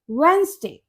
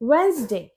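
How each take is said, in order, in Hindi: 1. बीच में d की आवाज़ साइलेंट है। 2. बीच में d की आवाज़ साइलेंट है।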